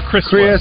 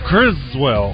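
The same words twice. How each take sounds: First: The middle consonant is a hissing S sound. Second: The middle consonant is a buzzing Z sound.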